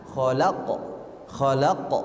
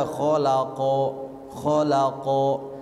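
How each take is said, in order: First: "Kholaqo" with an abrupt bounce on the q and short o; jolted qalqalah. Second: "kholaqo" with drawn-out vowels and no jolt; unbounced reading. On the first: Teacher shows correct reading, "kholaqo" with a jolt. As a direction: snap the q of "kholaqo". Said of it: "tapi ada hentakan". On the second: Teacher shows wrong reading, "kholaqo" drawn out. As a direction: stretch "kholaqo" smoothly into a long final o. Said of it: "bukan dibaca". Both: Shown as a demonstration.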